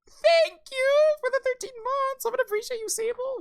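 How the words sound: It is said in a high-pitched voice.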